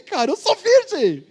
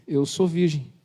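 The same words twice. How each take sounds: First: High, slow and pleading, leaning on sou; insisting. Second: Said in the usual way. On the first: Retold or imitated. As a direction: press the word sou as if nobody believes you. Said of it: "até ela não acredita".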